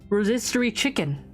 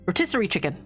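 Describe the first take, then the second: First: The first word sounds like 'ro-SIS-ter-y'. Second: The first word sounds like 'ro-TIS-ser-ie'. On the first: The speaker calls it wrong. "I'm gonna pretend, pretend that's how you pronounce it" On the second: The speaker calls it right. "Did I say right?"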